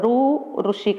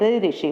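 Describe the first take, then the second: First: The letter is said the Marathi way. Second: The letter is said the Hindi way. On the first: "इसको मराठी में रू ऋषि कहा जाता है" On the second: "Hindi में ऋ ऋषि"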